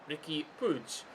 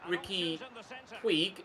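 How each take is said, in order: First: The surname is said with Catalan pronunciation. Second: The surname is said with Spanish pronunciation. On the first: "if you're pronouncing it in Catalan" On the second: "if you're pronouncing it in Spanish"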